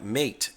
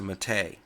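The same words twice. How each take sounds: First: It sounds like the 'mate' in roommate. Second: It does not sound like the 'mate' in roommate. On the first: It follows the English spelling. The speaker calls it wrong. "which looks like mate, as in roommate or checkmate" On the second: It follows the name of the flower. The speaker calls it right. "named it after a local flower, which is a Mate"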